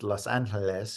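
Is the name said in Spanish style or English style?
Spanish style. The name is said in a Spanish style. This is the name's original form. The speaker calls it wrong. "is not pronounced"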